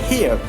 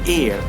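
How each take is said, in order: First: The word begins with an audible h sound. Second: The word begins with no h sound. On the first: The speaker calls it wrong. "we cannot say" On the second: The speaker calls it right. "the correct pronunciation is"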